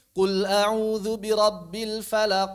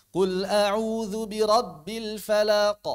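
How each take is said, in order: First: Slow chanted falaq with the final q stretched to a full vowel; recited slowly, falaq echo held a whole beat; echo too long. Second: Slow recitation, falaq ending in a brief q bounce; chanted slowly, quick echo closing falaq; short correct echo. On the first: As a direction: show the mistake: falaq ending in a long "qo". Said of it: "Enggak, itu satu harokat". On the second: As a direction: model falaq with a short release. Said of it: "Jadi jangan satu harokat". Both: Shown as a demonstration.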